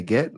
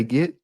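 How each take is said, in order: First: "get" rhyming with bet; get with short E. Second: "get" said as "git". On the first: Teacher testing student, "get" with a short E. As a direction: say "get" with a clear E. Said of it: "Those are different". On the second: Teacher testing student, "get" pronounced git. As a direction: say "get" with a short I. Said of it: "you say get". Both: Retold or imitated.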